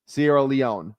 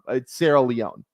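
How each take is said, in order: First: Leone ends like the word mignon. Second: Leone does not end like mignon. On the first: The speaker calls it wrong. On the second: The speaker calls it right.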